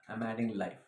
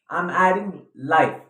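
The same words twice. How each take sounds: First: The voice is flat and robotic. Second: The voice is lively and expressive. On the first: The speaker calls it wrong. "repeat these past two lines in another tone" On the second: The speaker calls it right. "listen to my voice. I'm adding life"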